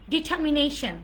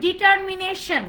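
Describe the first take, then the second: First: "ডিটারমিনেশন" as di-ta-mi-NAY-shn; "ডিটারমিনেশন" with no r and a weak ending; silent-r pronunciation. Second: "ডিটারমিনেশন" with a sounded r; Bangla-style "ডিটারমিনেশন", r clearly voiced; common mispronunciation. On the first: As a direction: drop the r in ডিটারমিনেশন. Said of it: "আর লেটারটা silent থাকবে". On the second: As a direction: say ডিটারমিনেশন as di-TAAR-mi-ne-shon. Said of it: "আমরা বলি". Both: Shown as a demonstration.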